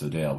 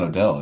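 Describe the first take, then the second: First: The second syllable rhymes with 'sale'. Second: The second syllable rhymes with 'bell'. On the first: The speaker calls it right. "it's Odale" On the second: The speaker calls it wrong. "it's not Odell"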